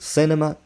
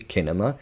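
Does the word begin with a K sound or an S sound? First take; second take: S sound; K sound. First: The word begins with an S sound. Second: The word begins with a K sound. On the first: The speaker calls it right. "in a second know that it's um, one sound or the other" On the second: The speaker calls it wrong. "You wouldn't say"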